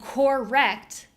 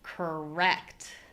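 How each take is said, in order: First: Both syllables sound equally strong. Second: One syllable clearly stands out from the other. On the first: The speaker calls it wrong. "they sound too similar" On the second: The speaker calls it right. "Now they sound different"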